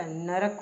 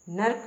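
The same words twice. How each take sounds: First: नरक in two syllables, na-rak; correct pronunciation. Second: नरक run into one syllable, nark; wrong pronunciation. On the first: Teacher correcting learners, नरक said in full as na-rak. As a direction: sound the middle a of नरक. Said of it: "नरक पूरा आएगा". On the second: Teacher showing the mistake, नरक squashed to nark. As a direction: drop the middle vowel of नरक. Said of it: "नरक नहीं होता". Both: Shown as a demonstration.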